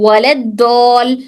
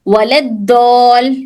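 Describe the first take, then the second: The two takes are said the same way.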